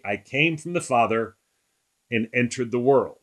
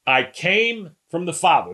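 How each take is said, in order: First: Said in the usual way. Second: Higher, with "came" hit hard; bold emphasis. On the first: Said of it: "Pretty bold statement". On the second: Shown as a demonstration. Pastor echoes Jesus' bold claim to the group, emphatic. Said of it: "Who talks like this?".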